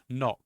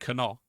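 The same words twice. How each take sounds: First: The word begins with a silent K. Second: The word begins with a sounded K. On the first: The speaker calls it right. "We have letters that don't sound make sound in words" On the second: The speaker calls it wrong. "You don't say knock"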